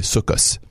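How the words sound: It is said in Ashkenazi Hebrew, ending in s.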